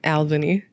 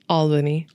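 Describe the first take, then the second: First: The first vowel sounds like the one in 'pal'. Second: The first vowel sounds like the one in 'all'. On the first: The speaker calls it wrong. "how am I saying it?" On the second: The speaker calls it right. "think about it being A L L"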